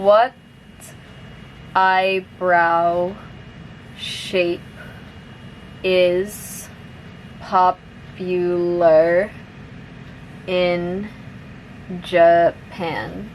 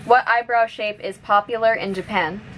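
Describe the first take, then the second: First: The sentence is spoken slowly. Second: The sentence is spoken at normal, fast speed. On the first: "I'll say it slowly first" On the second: "one more time at normal speed"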